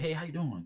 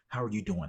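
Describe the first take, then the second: First: It sounds quick and casual, in passing. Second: It sounds slow, sincere and caring.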